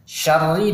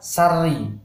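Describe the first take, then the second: First: The word begins with a sh sound. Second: The word begins with a plain s sound. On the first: The speaker calls it right. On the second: The speaker calls it wrong.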